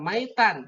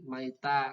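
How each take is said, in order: First: The word ends with an n sound. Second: The word ends on a vowel without n. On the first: The speaker calls it wrong. "tidak maitan" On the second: The speaker calls it right. "tapi maita"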